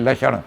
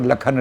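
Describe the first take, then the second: First: The middle consonant is pronounced as 'ksh'. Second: The middle consonant is pronounced as 'kh'. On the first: This is how the word is written. "लक्षण लिखेंगे" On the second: This is how the word is read aloud. "लेकिन पढ़ेंगे इसको लखन लाल"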